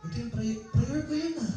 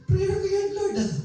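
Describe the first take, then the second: First: Raised high and softer, a whiny complaint to the Lord; envious pleading prayer. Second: Much higher, insistent whining plea; envious pleading prayer. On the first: Preacher voicing a jealous believer praying, high whiny plea. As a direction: pitch it up, a hurt mock plea. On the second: Preacher voicing a jealous believer insisting to the Lord, shrill mock plea. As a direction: push the pitch way up, protesting to God. Same prayer, pushed further. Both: Retold or imitated.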